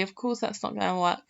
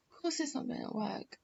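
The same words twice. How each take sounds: First: Said in the usual way. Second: Much softer, fast, to herself; quiet repeat. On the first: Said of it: "repeats it much quieter". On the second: Real, not acted. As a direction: mutter it under your breath, quickly. Repeats her line to herself.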